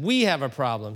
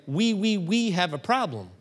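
First: "We" punched as if French "oui"; "We have a problem" with "We" stressed as a pun. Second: "We, we" said like French "oui, oui"; mock French "We, we"; French oui pun. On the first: Retold or imitated. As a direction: lean on "We" like the French word. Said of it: "when did you start speaking French". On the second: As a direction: play "We, we" as the French word for yes. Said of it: "speaking French".

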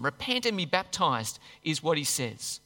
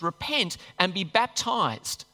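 First: Said in the usual way. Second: "Repent and be baptized" drawn out slowly, REPENT stressed; slow weighty stress on "Repent"; slow emphatic command. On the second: Shown as a demonstration. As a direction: lean hard on "Repent", slow down through "baptized". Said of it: "Get washed clean in baptism".

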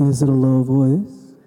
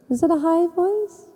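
First: Demonstrating a low voice, pitched much lower. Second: Demonstrating a high voice, pitched much higher. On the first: Asking if God speaks low, in a low voice. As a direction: drop the pitch to show a low voice. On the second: Asking if God speaks high, in a high voice. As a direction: jump up high to show a high voice. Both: Shown as a demonstration.

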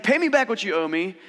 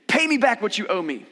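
First: Louder, higher mock throttling demand; preacher acting out the merciless servant's louder demand; imitating an angry demand. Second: Loud, higher demand for payment. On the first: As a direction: play the servant choking a debtor, loudly. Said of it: "Is like". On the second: Acted. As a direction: insist on being paid back, forcefully. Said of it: "he demanded".

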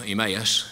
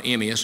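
First: Emmaus stressed on the middle syllable; alternative pronunciation. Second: Emmaus stressed on the first syllable; one pronunciation. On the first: Preacher comparing pronunciations of names, Emmaus with stress on MAY. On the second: Preacher comparing pronunciations of names, Emmaus with stress first. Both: Shown as a demonstration. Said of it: "how you pronounce all those names".

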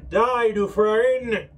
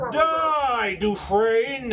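First: Slow, louder, echoing through a helm; metallic voice filter. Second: Battle cry from inside a helm, higher and louder; metallic helmet voice. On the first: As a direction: bellow it as if muffled in steel. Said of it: "it'd be like a". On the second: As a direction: shout it through a steel visor. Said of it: "Kind of a metallic sound from beneath the helm". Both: Acted.

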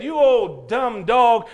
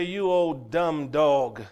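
First: Put-on slow, louder scornful kid's jeer; retold boy. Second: Slow, dismissive drawl without the shout; mock indifference. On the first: Boy kicking the wrong dog, loud and slow scorn. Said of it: "kicked him and said". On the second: Preacher voicing an uncaring person, slow dismissive jeer. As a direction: drag it out coldly, like someone who doesn't care. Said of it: "and then say".

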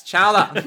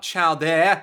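First: "chowder" loud as one word; corrected pronunciation. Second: "chow there" split as two drawn-out words; wrong pronunciation. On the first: Correcting someone's "chow there", loud "chowder". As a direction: hit "chowder" hard and run it together. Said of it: "It's not chow there". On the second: Correcting someone's chowder, "chow there" said wrongly. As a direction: stretch out "chow there" slowly. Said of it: "it's chowder". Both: Acted.

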